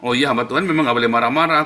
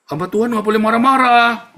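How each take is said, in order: First: Said in the usual way. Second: Loud, high-pitched imitated rebuke; mock scolding critic. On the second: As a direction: cry it out like an indignant objector.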